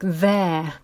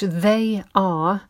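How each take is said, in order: First: It is said as one short contracted syllable. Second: It is said as two full separate words.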